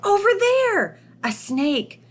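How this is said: It is said in an excited, lively voice. The speaker calls it right. "You would be excited about that"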